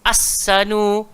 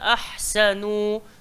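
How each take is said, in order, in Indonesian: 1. Bunyi h dihilangkan dan s dibaca ganda. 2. Bunyi h jelas diucapkan sebelum s. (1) "dia akan sebut as, as-sanu. Ha, hak tu bahaya" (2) "Dia kena bagi hak dulu"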